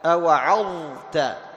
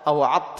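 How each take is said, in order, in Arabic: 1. تُنطق الظ بوضوح قبل الحرف الذي بعدها. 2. تُدغم الظ في الحرف الذي بعدها. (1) "تظهر الضاء عند التاء" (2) "ما تقول أو عظت"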